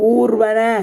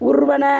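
First: The first vowel is long. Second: The first vowel is short. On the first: The speaker calls it right. "அப்படி தான் படிப்போம்" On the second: The speaker calls it wrong. "குறில் எழுத்தில் வராது"

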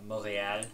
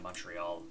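First: It is said with a Quebec French pronunciation. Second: It is said with an English pronunciation.

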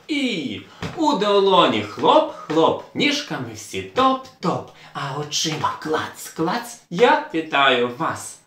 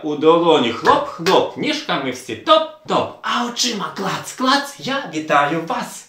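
First: It is said at a normal speed. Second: It is said somewhat faster than normal.

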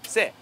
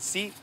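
First: The vowel sounds like eh. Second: The vowel sounds like ee. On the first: This is the local dialect form of the word. "사투리입니다" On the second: This is the standard form of the word. "원래는 C라고 해야 되는데"

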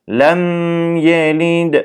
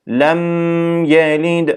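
The two takes are said the same way.

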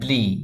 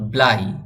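First: The vowel sounds like 'ee'. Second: The vowel sounds like 'eye'. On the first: "BL এর সঙ্গে যখন আই থাকে তখন উচ্চারণটি হবে ব্লি" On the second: "ব্লাই ও উচ্চারণ হয়"

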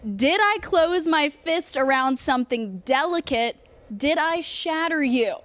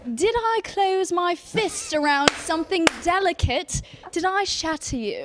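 First: It is spoken in the speaker's natural accent. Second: It is spoken in a put-on British accent.

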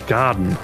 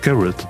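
First: The name ends with a 'den' sound. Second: The name ends with a 'ret' sound. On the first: The speaker calls it wrong. "er hat den Garten ausgesprochen. Also so wie der Garten im Englischen" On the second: The speaker calls it right. "nee, das heißt Garrett"

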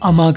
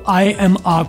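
First: The words run together as one word. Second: Each word is said separately. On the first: "आप अमा करके बोलते हैं" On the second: "लिखे separate है"

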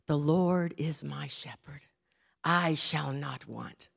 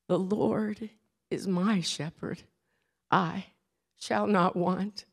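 First: The voice is smooth, polished and flowing. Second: The voice is feeble and a bit shaky. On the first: "gave in beautiful diction, like a silver-tongued orator" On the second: "in a feeble voice that was a bit shaky"

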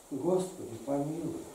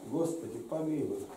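The two takes are said the same way.

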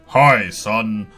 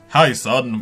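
First: It is said in a put-on dad voice. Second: It is said in his normal voice.

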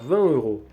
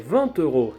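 First: No t sound links the two words. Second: A t sound links the two words. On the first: This is common in casual speech. The speaker calls it wrong. "у розмовному мовленні навіть перед голосною часто не роблять це зв'язування" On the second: This is the correct form. The speaker calls it right. "як правильно"

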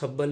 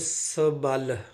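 First: The word is run together as one unit. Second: The word is said as sa plus bal. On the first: The speaker calls it wrong. "ਇਹਨੂੰ ਸਬਲ ਨਹੀਂ ਪੜ੍ਹਨਾ। ਸਬਲ ਪਾਠ ਅਸ਼ੁੱਧ ਪਾਠ ਹੈ।" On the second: The speaker calls it right. "ਬਲ ਦੇ ਅੱਗੇ ਸੱਸਾ ਲੱਗਿਆ ਹੋਇਆ ਹੈ"

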